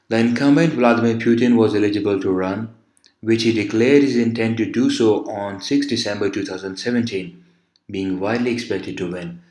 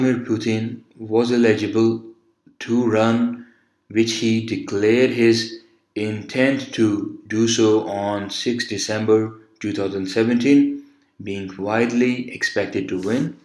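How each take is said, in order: First: It is read in long, smooth chunks. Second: It is read two words at a time.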